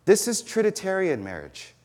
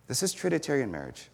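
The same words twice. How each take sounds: First: Higher, punching "This" in "This is Trinitarian marriage"; emphatic declaration. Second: Much softer, letting "This is Trinitarian marriage" settle; quiet restatement. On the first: Preacher stating his thesis to the congregation, pitched up on "This". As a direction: land "This" hard as the headline. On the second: Preacher echoing his thesis to the congregation, much softer. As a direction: repeat it gently so it sinks in. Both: Shown as a demonstration.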